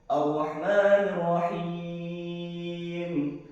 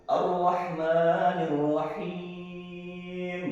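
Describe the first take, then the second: The two takes are said the same way.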